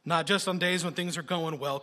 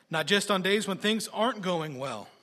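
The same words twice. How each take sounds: First: Said in the usual way. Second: "aren't" lifted higher for contrast; stress on aren't. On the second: Real, not acted. Preacher contrasting good days and bad, "aren't" stressed and raised. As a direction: lean on "aren't" with raised pitch.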